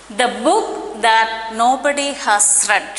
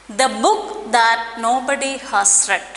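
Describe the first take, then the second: The two takes are said the same way.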